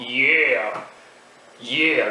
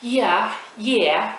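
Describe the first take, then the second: First: Drawn-out American "yeah", falling; exaggerated American accent demo. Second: High-pitched British "yeah", swooping tune; badly imitated British accent. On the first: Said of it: "L'accent américain, c'est un peu comme ça". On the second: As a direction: put on a higher British voice. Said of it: "l'accent britannique". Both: Shown as a demonstration.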